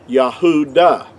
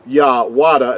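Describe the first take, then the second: First: A U vowel follows the first syllable. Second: A W consonant follows the first syllable. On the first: The speaker calls it right. "would have been pronounced Yahuda" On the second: The speaker calls it wrong. "See with the W. It's not Wa Yahwada"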